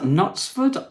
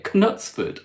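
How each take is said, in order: First: "Knutsford" as "Nutsford", silent K. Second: "Knutsford" as "Kuh-nutsford", K sounded. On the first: Host unsure of a town name, "Knutsford" with silent K. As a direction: say "Knutsford" starting on the N. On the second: Host trying a town name again, "Knutsford" with sounded K. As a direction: say "Knutsford" with a separate K before the N. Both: Shown as a demonstration. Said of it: "Is that how you say it?".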